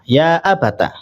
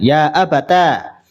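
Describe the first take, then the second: First: The word ends in a short final vowel. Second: The word ends in a long final vowel. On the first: "mengganti huruf ya dengan tak yang dibaca fathah" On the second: "mengumpulkan antara huruf tak dan alif dibaca panjang"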